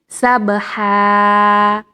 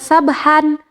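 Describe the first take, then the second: First: It ends in a lengthened vowel without n. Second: It ends with an n sound after the vowel. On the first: The speaker calls it right. "tapi sabha. Hanya kita panjangkan dua harokat" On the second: The speaker calls it wrong. "Bukan dibaca sabhan"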